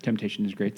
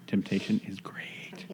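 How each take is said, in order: First: Said in the usual way. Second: Soft, slowed-down whispery delivery; hushed, low, lingering repeat; slow, savoring. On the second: Real, not acted. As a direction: draw it out slowly and quietly, pitched low. Repeats the line slowly, softly.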